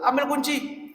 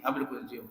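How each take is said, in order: First: Acted order in a higher pitch; retold command, pitched up without shouting; ustadz giving an order. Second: Hushed, low-pitched retelling of a command; soft aside echoing an instruction; low echoed order. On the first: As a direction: lightly voice an ustadz sending someone off. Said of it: "Ustadz Ade suruh". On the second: Retold or imitated.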